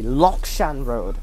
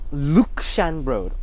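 First: The first syllable is said as 'Lok'. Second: The first syllable is said as 'Luk'. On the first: This is the technically correct pronunciation. The speaker calls it right. "technically the pronunciation should be Lokshan Road" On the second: This is how the bus company says it. The speaker calls it wrong. "KMB pronounces it as Luk, not Lok"

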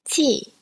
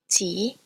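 First: It is said with the fourth tone. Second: It is said with the second tone. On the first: "here is the fourth tone" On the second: "The second tone is represented with an acute accent"

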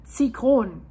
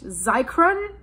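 First: The word is said with a German pronunciation. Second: The word is said with an English pronunciation. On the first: "If I would pronounce it German" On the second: "In English"

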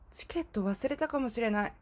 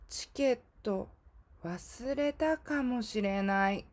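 First: It is spoken at a normal, quicker pace. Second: It is spoken a little more slowly.

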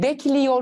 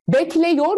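First: The vowel before -yor is a narrow 'i'. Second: The vowel before -yor is a wide 'e'. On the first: The speaker calls it right. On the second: The speaker calls it wrong.

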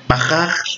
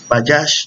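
First: Both j letters are throaty Spanish h sounds. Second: It sounds like ba-yash, with y and sh. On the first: "Ahora yo lo digo de las dos formas" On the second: "se pronuncia Bayash"

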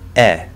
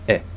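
First: The vowel is long and loud. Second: The vowel is short and quiet. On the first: The sound is in a stressed syllable. "that same eh sound is gonna be louder and longer" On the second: The sound is in an unstressed syllable. "an unstressed syllable is going to be shorter and quieter"

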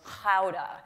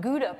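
First: Gouda is said with a Dutch pronunciation. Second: Gouda is said with an American accent. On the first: The speaker calls it right. "the proper pronunciation is Gouda" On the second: The speaker calls it wrong. "said immediately in my American New York accent"

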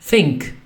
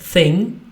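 First: The word ends with an added k sound. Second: The word ends in a plain ng sound. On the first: "tylko mówi think" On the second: "ale mówi nie thing"

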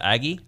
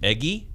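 First: The first vowel sounds like the vowel in add. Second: The first vowel sounds like the vowel in egg. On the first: "I feel like I say Aggie normal" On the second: "I say Eggie instead of Aggie"

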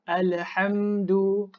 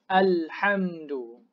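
First: The l sound has a bouncing echo. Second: The l sound is smooth with no echo. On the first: The speaker calls it wrong. "Jangan baca lam sukun ni dengan qalqalah, ada lantunan, ada detakan. ... tak boleh, salah" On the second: The speaker calls it right. "Baca dengan perlahan-perlahan"

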